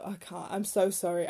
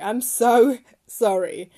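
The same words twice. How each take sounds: First: Said in the usual way. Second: Slow, louder sorry broken by a real laugh; giggling embarrassed sorry; laughing apology. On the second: Real, not acted. Laughing apology for butchering a name.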